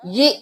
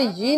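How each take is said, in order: First: "ये" cut short with a jolt on the hamza. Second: Quick "ये" with no hamza jolt; unjolted reading. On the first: Teacher joining ya with hamza, "ये" with a jolt. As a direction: stop "ये" abruptly on a glottal catch. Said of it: "हमज़ा के ऊपर जज़म है, झटका देकर पढ़ेंगे". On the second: Teacher warning students off a mistake, smooth unjolted "ये". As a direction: let "ये" run smoothly into the next word. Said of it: "यहाँ पे ये नहीं करेंगे". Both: Shown as a demonstration.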